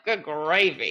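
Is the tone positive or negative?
negative. It sounds exasperated and negative.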